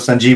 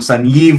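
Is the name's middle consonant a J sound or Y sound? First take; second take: J sound; Y sound. First: The middle consonant is a J sound. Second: The middle consonant is a Y sound. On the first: "Sanjeev was okay there" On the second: "the J is pronounced as a Y"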